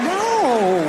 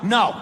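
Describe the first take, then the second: First: It is a teasing, playful refusal. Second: It is a firm, serious refusal.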